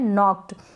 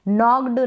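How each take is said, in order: First: The word ends with a light t sound. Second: The word ends with a voiced d sound. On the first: The speaker calls it right. "यानी ट का sound आता है इसमें मामूली सा" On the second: The speaker calls it wrong. "नहीं बोलेंगे, नॉक्ड गलत होता है"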